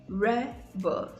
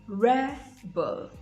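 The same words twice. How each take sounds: The two takes are said the same way.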